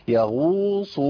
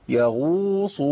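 No difference in how they are said.

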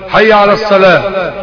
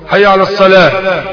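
The two takes are said the same way.

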